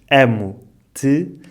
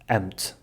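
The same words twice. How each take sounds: First: All the vowels are pronounced fully. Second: The unstressed vowels are dropped. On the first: "dizemos amo-te" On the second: "a forma como pronunciamos fica amo-te"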